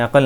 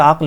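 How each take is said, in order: First: अक़ल as two syllables, a-qal, with an a between क़ and ल; teaching pronunciation with extra vowel. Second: अक्ल as one syllable, aql, no vowel between क् and ल; correct pronunciation. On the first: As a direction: say अक़ल spread out like a-qal for beginners. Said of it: "हम अक़ल कह रहे हैं इसको". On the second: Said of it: "वैसे तो अक्ल होता है". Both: Shown as a demonstration.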